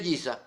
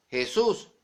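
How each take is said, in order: First: "Jesus" as JEE-sa; English pronunciation. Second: "Jesús" as heh-SOOS, rising on the last syllable; Spanish "Jesús", stressed on SÚS; Spanish mispronunciation. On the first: Preacher contrasting the original name, "Jesus" as English JEE-sa. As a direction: say "Jesus" the English way, stress first. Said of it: "creación de una mala pronunciación". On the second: Preacher naming the derived form, "Jesús" as heh-SOOS. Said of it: "es creación de una mala pronunciación". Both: Shown as a demonstration.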